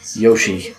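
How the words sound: The name begins with a 'y' sound.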